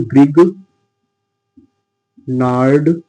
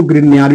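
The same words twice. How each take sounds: First: ग्रिग नार्ड said in two parts, hard g then "naard"; Hindi pronunciation. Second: ग्रिग्नार्ड run together as "grin-yaar"; alternative pronunciation. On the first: Chemistry teacher dictating the reagent's Hindi name, ग्रिग नार्ड in two separate parts. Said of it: "इसको हिंदी में बोलते हैं". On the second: Chemistry teacher giving others' variant, ग्रिग्नार्ड said as "grin-yaar". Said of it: "कुछ लोग इसको ग्रिग्नार्ड भी बोलते हैं". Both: Shown as a demonstration.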